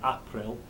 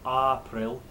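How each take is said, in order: First: The first vowel is said short. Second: The first vowel is said long. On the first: This is a modern reader's pronunciation. "you're saying a short vowel" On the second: This is the original older pronunciation. "Chaucer would have said something like April"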